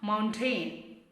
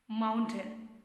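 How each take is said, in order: First: The second syllable has a full vowel. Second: The second syllable has a reduced schwa vowel. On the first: The speaker calls it wrong. "It's not mountain" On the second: The speaker calls it right. "Say that mountain"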